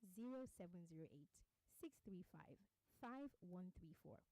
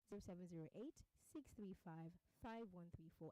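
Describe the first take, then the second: First: The numbers are read slowly. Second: The numbers are read at normal speed.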